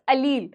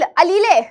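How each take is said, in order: First: The word ends on 'leel' with no extra syllable. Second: The word ends with an extra 'lay' syllable. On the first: The speaker calls it right. "It's अलील" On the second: The speaker calls it wrong. "कुछ बच्चे बोलते हैं अलीले। ... अलीले कुछ नहीं होता"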